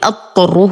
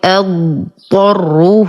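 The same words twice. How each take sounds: First: The d sound merges into the following t. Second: The d sound is said clearly before the t. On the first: The speaker calls it wrong. "لا ندغم الضاد في الطاء، فلا نقول أضطره وهذا خطأ" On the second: The speaker calls it right. "نقرأ الضاد أولا ثم الطاء"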